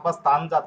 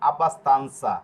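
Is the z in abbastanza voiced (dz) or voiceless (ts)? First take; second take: voiced; voiceless. First: The z is a voiced dz sound. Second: The z is a voiceless ts sound. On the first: The speaker calls it wrong. "এখানে যদি আপনি পড়েন আব্বাস্তানজা তাহলে হবে না" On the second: The speaker calls it right. "লাস্টে রয়েছে কি আনসা"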